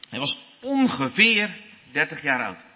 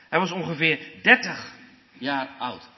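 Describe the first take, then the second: First: The stress falls on the word ongeveer. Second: The stress falls on the word 30. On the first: The exact age is uncertain and does not matter. "als je de nadruk legt op dat woord ongeveer" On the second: The specific number thirty is significant. "als je de nadruk op 30 legt"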